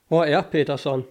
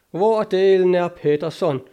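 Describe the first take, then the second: First: Said in the usual way. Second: Louder, higher, exasperated demand; irate exclamation, voice raised; angry outburst. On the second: A narrator's reading. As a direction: burst out, demanding to know where he is. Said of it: "udbrød O'Kelly og blev mørkerød".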